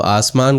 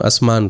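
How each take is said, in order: First: The word has the standard Urdu vowel pattern. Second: The word has the Pashto-accented vowel pattern. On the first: "आसमान को" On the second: "हमारा उधर का जो लहजा है, ... हम आसमान पढ़ते हैं पश्तो में"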